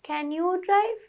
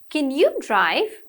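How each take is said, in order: First: It is said flat, without question intonation. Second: It is said with varied, questioning pitch.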